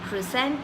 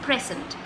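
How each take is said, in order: First: The stress is on the second syllable. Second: The stress is on the first syllable. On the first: It means to give or show something. "it's mostly at the second syllable" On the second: It is a gift. "nouns are always, you know, uh, stressed on the first syllable"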